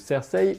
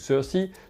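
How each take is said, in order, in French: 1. Le nom se prononce à la française. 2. Le nom se prononce à l'anglaise. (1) "à la française" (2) "à l'anglaise"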